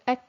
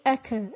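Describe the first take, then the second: First: The k is cut short with breath escaping. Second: The k ends with a vibrating echo. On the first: The speaker calls it right. "the sound is cut and the breath is allowed to run" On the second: The speaker calls it wrong. "It shouldn't be ek ... it shouldn't be a vibration"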